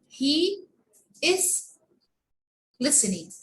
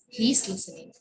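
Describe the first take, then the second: First: The verb is said as a separate full word. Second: The verb is squeezed quickly onto the pronoun. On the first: "there is a quite difference between pronouncing is and this one" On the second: "it's too fast"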